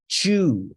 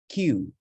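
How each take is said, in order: First: The syllable starts with a ch sound. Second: The syllable starts with a k and y sound. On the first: The speaker calls it wrong. "not chew" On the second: The speaker calls it right. "This is Q"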